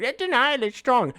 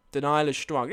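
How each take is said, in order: First: High, silly mock voice; mocking imitation. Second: Said in the usual way. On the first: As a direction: parrot the teasing chat in a raised voice. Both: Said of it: "That's how you sound".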